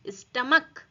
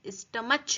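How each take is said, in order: First: The middle sound is a 'k' sound. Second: The middle sound is a 'ch' sound. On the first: The speaker calls it right. "ये सी एच का pronounce pronunciation क्या हो रहा है, क।" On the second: The speaker calls it wrong. "यहां पर हम स्टमच नहीं बोलेंगे"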